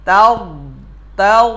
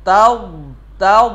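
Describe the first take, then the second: No difference in how they are said.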